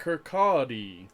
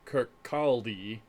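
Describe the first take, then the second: First: "Kirkcaldy" said slowly as "kur-KAW-dee"; "Kirkcaldy" with a silent L, slowly; careful pronunciation. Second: "Kirkcaldy" said slowly as spelt, with the L; "Kirkcaldy" read out letter by letter, L sounded; spelling pronunciation. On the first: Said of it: "how do you say it?". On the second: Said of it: "It's spelt". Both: Shown as a demonstration.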